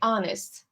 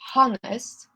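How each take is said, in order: First: The word starts with a vowel, no h sound. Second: The word starts with a clear h sound. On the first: The speaker calls it right. "we say honest" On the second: The speaker calls it wrong. "not honest"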